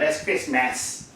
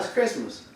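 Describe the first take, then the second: First: The first syllable is sounded out from its spelling. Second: The first syllable is said the usual everyday way. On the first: The word is read by the rules of phonics. The speaker calls it wrong. "if you just going on the logic of the... study of how to pronounce words when they're spelled a certain way" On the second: The word is said the customary way. The speaker calls it right. "No, it's Christmas"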